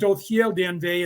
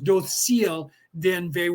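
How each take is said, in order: First: The first word has a th-like consonant sound. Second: The first word has an s consonant sound. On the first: "instead of Dothgel Dienve ... where I say Dothgel" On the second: "they say the C more as an S sound instead of a T H"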